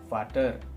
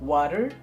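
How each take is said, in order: First: It begins with a V sound. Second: It begins with a W sound.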